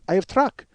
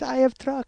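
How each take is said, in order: First: It is said in a louder put-on voice. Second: It is said softly and quietly. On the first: "why do I do his voice?" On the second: "because he was very quiet"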